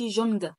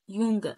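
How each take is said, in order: First: The word begins with a J sound. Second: The word begins with a Y sound. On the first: The speaker calls it wrong. "ما بقولش جونج" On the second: The speaker calls it right. "لا يونج"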